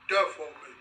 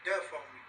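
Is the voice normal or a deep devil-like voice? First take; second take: devil-like; normal. First: It is said in a deep devil-like voice. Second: It is said in his normal voice.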